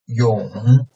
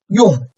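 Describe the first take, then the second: First: The pitch dips low, then rises slightly. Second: The pitch falls sharply from high to low.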